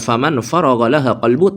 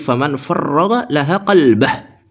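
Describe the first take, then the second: First: The last word ends with a short u sound. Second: The last word ends with an ah sound. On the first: The speaker calls it wrong. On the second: The speaker calls it right.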